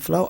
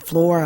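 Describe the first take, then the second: First: The final r sound is dropped. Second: The final r sound is pronounced. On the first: "I'm saying flow" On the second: "because I'm not saying floor"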